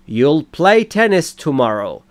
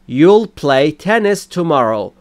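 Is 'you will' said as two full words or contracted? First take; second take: contracted; contracted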